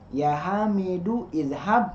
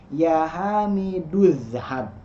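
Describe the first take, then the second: First: A separate 'i' vowel is said before 'zhab'. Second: The 'u' runs straight into 'zhab' with no 'i'.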